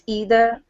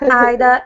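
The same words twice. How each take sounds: First: It is said in an American accent. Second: It is said in a British accent. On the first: The speaker calls it right. "it's either" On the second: The speaker calls it wrong. "It's not either"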